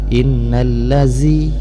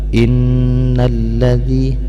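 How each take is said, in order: First: The consonant is a hissing 'z' sound. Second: The consonant is a soft 'th' without hissing. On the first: The speaker calls it wrong. "lazi itu berubah daripada makhraj zal kepada makhraj zai" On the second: The speaker calls it right. "ini huruf zal bukan huruf za"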